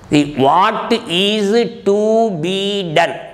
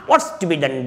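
First: Each word is said separately and fully. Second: The words run together in one stretch.

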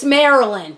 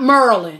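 First: The word is said in full, Mary-land. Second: The word is clipped into two syllables, like Merlin. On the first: The speaker calls it right. "It's Maryland" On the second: The speaker calls it wrong. "not Merlin"

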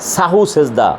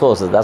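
First: The first word is said as two syllables, sahu. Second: The first word is shortened to one syllable, so. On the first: The speaker calls it right. "ভালো উচ্চারণ pronunciation accurate" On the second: The speaker calls it wrong. "সোটা গ্রাম্য আঞ্চলিক কথা"

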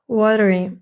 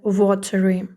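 First: It is spoken with an American accent. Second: It is spoken with a British accent. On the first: "Це американський варіант" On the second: "а британський буде watery"

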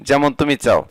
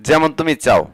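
Both takes have the same delivery.

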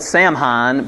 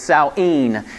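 First: The word is read the way it looks. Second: The word is said unlike its written form. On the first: The speaker calls it wrong. "if you look at the spelling, it's spelled Samhain" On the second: The speaker calls it right. "the way you pronounce it is Samhain"

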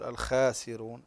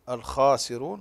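First: The kh sound is thin and light. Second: The kh sound is thick and heavy. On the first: The speaker calls it wrong. "لا نرققها، لا نقول الخاسرون" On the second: The speaker calls it right. "الخاء دائما مفخمة"

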